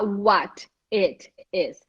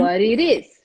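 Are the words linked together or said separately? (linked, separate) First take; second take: separate; linked. First: Each word is said separately, without linking. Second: The words run together with linked sounds. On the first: The speaker calls it wrong. "Você, a pessoa ela não vai falar what it is" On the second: The speaker calls it right. "Ela vai falar what it is"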